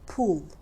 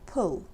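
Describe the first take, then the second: First: The vowel is said with tense, tightly rounded lips. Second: The vowel is said with relaxed lips, further back. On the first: It sounds like a non-native accent. The speaker calls it wrong. "if you say pool" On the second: It sounds like a native speaker. The speaker calls it right. "in reality it should be pull"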